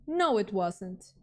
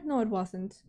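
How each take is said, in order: First: NO stretched slowly in "No, it wasn't"; slow, emphatic "No, it wasn't", leaning on NO; drawn-out insistence. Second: Said in the usual way. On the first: Real, not acted. Repeats the answer with emphasis.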